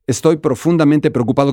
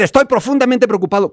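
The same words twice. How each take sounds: First: Said in the usual way. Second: ESTOY PROFUNDAMENTE PREOCUPADO pitched high, in an angry tune; high-pitched demonstrated outburst; angry music. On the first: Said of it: "No es lo mismo decir". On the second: Shown as a demonstration. Teacher contrasting a flat statement with an upset one, high angry tune. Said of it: "Cuando te enojas, tienes que hacer una música de enojo".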